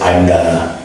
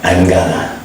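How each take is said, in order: First: It is reduced to gonna, American style. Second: The same.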